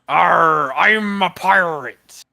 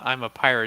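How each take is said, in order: First: It is said in a growling pirate voice. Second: It is said in a plain, ordinary voice.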